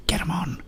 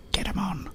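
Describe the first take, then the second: No difference in how they are said.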